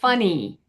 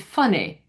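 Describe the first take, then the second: First: The final vowel is held longer. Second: The final vowel is clipped short. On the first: "instead of" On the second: "that E sounds shortens a bit. So it'd be funny"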